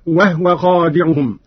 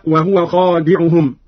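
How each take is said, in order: First: وهو said "wahwa", no vowel on the ha; slow Qalun reading, وهو as "wah-wa"; vowelless ha. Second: Said in the usual way. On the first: Shown as a demonstration. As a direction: close the ha onto the waw in وهو. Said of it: "بإسكان الهاء هكذا". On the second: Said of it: "قرأ قالون بإسكان الهاء".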